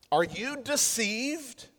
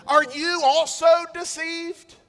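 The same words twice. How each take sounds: First: Said in the usual way. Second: Higher, slow, louder scornful question; scornful Pharisee. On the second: Acted. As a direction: sneer it down at the officers. Pharisees scolding officers.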